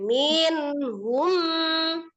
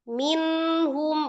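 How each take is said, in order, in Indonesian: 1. Kata itu diucapkan dengan dorongan mendadak yang kuat. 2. Kata itu diucapkan dengan lancar tanpa dorongan.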